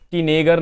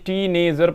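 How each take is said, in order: First: The middle consonant is a hard G sound. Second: The middle consonant is a soft J sound. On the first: The speaker calls it wrong. "टीनेगर नहीं पढ़ना है" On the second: The speaker calls it right. "ये टीनेजर पढ़ा जाता है"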